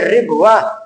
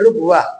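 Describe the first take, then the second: First: The first syllable has the vowel i. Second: The first syllable has the vowel u. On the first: This form is rare. "boleh dibaca ri" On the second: This form is the most common. "zomu lughatul aksari"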